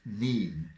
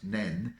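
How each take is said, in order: First: The vowel is long, as in 'seen'. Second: The vowel is short, as in 'ten'. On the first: This is the local name in Peterborough. "where it's pronounced Neen" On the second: This is the local name in Northampton. "where it's pronounced Nen"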